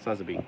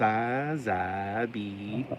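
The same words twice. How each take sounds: First: The name is said in a plainer, flatter way. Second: The name is said in a livelier, exciting way. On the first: This is the official correct version. The speaker calls it right. "but it's just Sazabi. ... It doesn't sound as exciting" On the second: This is the speaker's own habitual version. The speaker calls it wrong. "I always want to go Sazabi"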